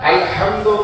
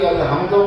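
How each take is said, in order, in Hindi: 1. h एक मज़बूत ध्वनि है जो गले से निकलती है। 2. h एक सामान्य, हल्की साँस वाली ध्वनि है। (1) "हा और है का फर्क रहे" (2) "माना बदल जाएंगे"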